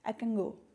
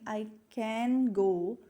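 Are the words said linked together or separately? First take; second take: linked; separately. First: The words run together; the n sounds like ng. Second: Each word is said separately, without linking. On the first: "we usually speak in a rapid form" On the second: "Instead of saying I can go separately"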